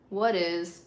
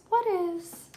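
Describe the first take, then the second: First: Said in the usual way. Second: Playful, very high squeaky echo; high-pitched repeat. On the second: Real, not acted. Streamer puzzling over a viewer comment, high-pitched echo.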